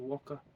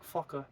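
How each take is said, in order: First: The word begins with a w sound. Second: The word begins with an f sound. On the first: This is how the local west coast people say it. "they say waka" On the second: This is the usual pronunciation. "they don't say uh, like fucker"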